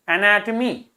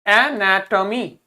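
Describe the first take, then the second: First: Said in the usual way. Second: एनाटॉमी slowly, in four separate syllables; pronunciation demo. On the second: Shown as a demonstration. Teacher asks pupils to read it, slow syllabic एनाटॉमी. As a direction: pull एनाटॉमी apart syllable by syllable. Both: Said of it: "इसको पढ़िए".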